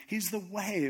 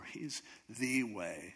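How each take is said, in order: First: "way" as the key word, with a short unstressed "the"; stress on WAY. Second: "the" drawn out as "thee", slow and low; slow right down and hold "the" as "thee"; stress on THE. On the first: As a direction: pass lightly over "the" and land on "way". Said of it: "What does that mean?". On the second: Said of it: "That means everything else is not". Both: Shown as a demonstration.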